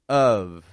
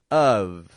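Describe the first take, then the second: The two takes are said the same way.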